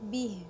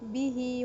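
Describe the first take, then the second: First: The word ends on a bare h sound. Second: The word ends in a long vowel. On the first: The reading stops on this word. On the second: The reading continues into the next word.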